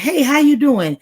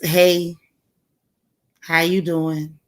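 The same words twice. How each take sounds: First: It is said in a warm, friendly way. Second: It is said in a flat, dry way.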